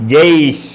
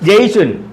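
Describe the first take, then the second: First: The word ends on a bare final consonant. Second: The word ends with an added 'un' sound. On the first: This is how the word is said at a full stop. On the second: This is the full written form of the word.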